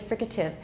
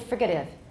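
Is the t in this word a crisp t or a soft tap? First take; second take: crisp t; soft tap. First: The t is a crisp, voiceless t sound. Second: The t is a soft, voiced tap. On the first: The speaker calls it right. "I say fricative" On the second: The speaker calls it wrong. "I don't say fricative. I suppose it's possible, but it sounds odd"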